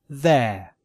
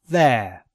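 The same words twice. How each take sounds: Both takes have the same delivery.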